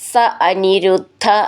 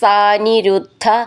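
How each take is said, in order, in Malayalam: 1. വാക്കുകൾ ഇടവേളയോടെ വേർതിരിച്ചാണ് ചൊല്ലുന്നത്. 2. വാക്കുകൾ ഒന്നായി ചേർത്താണ് ചൊല്ലുന്നത്.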